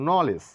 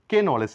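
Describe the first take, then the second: First: The K sound is silent. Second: The K sound is pronounced. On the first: The speaker calls it right. "বলবো নলেজ" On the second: The speaker calls it wrong. "কে নলেজ নয়"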